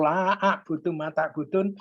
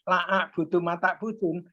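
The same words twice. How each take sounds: First: The vowel in 'la' is held long. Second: The vowel in 'la' is held short. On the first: I will not worship what you worship. The speaker calls it right. "aku tidak akan menyembah" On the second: I will truly worship what you worship. The speaker calls it wrong. "dibaca dengan pendek"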